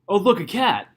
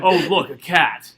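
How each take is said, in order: First: The speaker sounds happy. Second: The speaker sounds disgusted.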